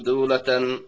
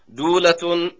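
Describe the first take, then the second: First: The word ends with the vowel a plus n. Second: The word ends with the vowel u plus n. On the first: "بالنصر" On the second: "بالرفع"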